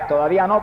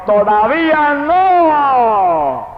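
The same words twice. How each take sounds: First: Said in the usual way. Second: Very high, very slow cry, stretched long; booming divine shout. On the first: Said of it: "entendía". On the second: Retold or imitated. The voice of God waking him at night, a huge slow shout. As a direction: thunder it down like God's voice from the sky. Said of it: "y la voz me gritó".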